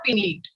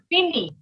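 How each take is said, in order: First: The final t sound is pronounced. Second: The final t sound is silent. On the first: The speaker calls it wrong. "not finite" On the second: The speaker calls it right. "T will not be pronounced"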